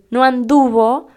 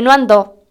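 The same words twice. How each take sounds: First: "anduvo" in three syllables, stress on DU; correct irregular past. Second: "andó" in two syllables, stress on final ó; louder "andó", hit the last syllable; mistaken regular past. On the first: Teacher giving the correct past, "anduvo" with stressed DU. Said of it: "en vez de decir". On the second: Teacher quoting a common mistake, "andó" stressed at the end. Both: Shown as a demonstration.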